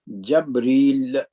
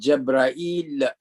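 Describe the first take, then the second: First: The first vowel is a, then a short i. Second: The first vowel is a, then a-i before l. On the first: This is the form used by some other speakers. "according to some other, it is pronounced as Jabril" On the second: This is the form used by the Qais and Tamim tribes. "in the language of uh, the tribe of Qais and Tamim"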